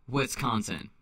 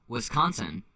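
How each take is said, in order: The two takes are said the same way.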